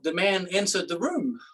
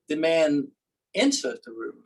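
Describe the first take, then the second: First: The stress is on "room". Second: The stress is on "entered".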